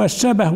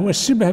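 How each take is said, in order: First: الشبه said "ash-shabah", fatha on shin and ba; both vowels fatha. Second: والشبه said "wash-shibh", i after shin, silent-vowel ba; variant vowelling. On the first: Teacher giving the first variant of a word for copper, الشبه as "shabah". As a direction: open both syllables of الشبه as sha-bah. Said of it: "كان هذا الإناء من شبه"، بفتح المعجمة". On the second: Teacher giving the second variant of the same word, والشبه as "shibh". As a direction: close والشبه into one syllable, shibh. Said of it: "والشبه بمعنى واحد". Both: Shown as a demonstration.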